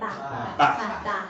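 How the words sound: The vowel is short, like the vowel in back. The speaker is from the north. "if you're from the north ... doesn't sound like there's an R in it"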